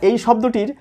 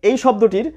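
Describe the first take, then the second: Both takes have the same delivery.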